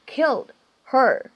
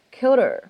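First: Said in the usual way. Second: "killed her" run together as "kill-der"; linked, h dropped. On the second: Shown as a demonstration. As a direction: drop the h and link "killed her". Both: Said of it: "可以做一个击穿的处理".

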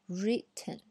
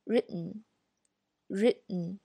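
First: Written with a popped T, slow; written, the version to avoid; wrong written. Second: Very slow written, T held, then nasal n. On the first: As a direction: say written the way not to, T released. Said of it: "不读written". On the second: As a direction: stretch written, stop the T, release through the nose. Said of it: "然后直接发N的这个音". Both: Shown as a demonstration.

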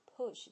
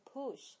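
First: Said in the usual way. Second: "push" with a long, tense oo; "push" mispronounced with a stretched oo; common mistake. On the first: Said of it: "不要说成push". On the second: Shown as a demonstration. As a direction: say "push" as "poosh". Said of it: "很多人呢会把它说成push".

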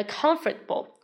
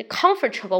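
First: Comfortable said the usual way, plain and clear; own comfortable. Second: Comfortable stretched out into every syllable, com-for-ta-ble; disliked comfortable. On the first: Teacher models her usual way of saying comfortable. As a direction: says comfortable just as the teacher normally does. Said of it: "Usually I pronounce like". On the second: Teacher shows the comfortable she can't accept. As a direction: draws comfortable out in full, the version she rejects. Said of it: "我无法接受啊". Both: Shown as a demonstration.

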